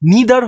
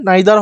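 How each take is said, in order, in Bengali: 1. প্রথম স্বরধ্বনিটি 'ee' এর মতো শোনায়। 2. প্রথম স্বরধ্বনিটি 'eye' এর মতো শোনায়। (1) "নিদার হয়" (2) "নাইদার হয়, যে যেটা বলে কমফোর্টেবল"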